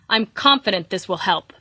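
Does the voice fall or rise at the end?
fall. The voice falls firmly at the end, like a statement. The speaker sounds definite and certain. "a really big period"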